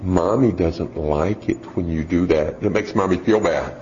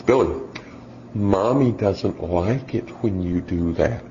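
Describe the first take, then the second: First: Mock sweet mom. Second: Slow, soft, syrupy mommy voice imitating a parenting-book mother; mock sweet mom. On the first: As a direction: coax the child gently and sweetly. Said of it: "she goes". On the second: Preacher imitating a soft-spoken mom at Walmart. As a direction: gently scold the child like a mom who read the articles. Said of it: "And she says".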